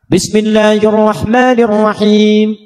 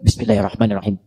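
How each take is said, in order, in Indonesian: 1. Dibaca keras dengan suara penuh. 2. Dibaca pelan, dekat ke mikrofon. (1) "dijaharkan, dibaca keras" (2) "Ini silent, sir, tapi ditempelkan ke mic"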